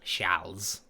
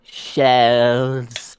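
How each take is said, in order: First: "Charles" with an open a and a final rise; French Charles. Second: "Charles" drawn out with a flat English a, ending in a hard z; exaggerated English Charles. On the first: Host correcting his mate with a French Charles. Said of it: "the pronunciation that isn't there". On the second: Mate teasing his co-host with an overdone English Charles. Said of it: "Really put that emphasis on the pronunciation". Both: Shown as a demonstration.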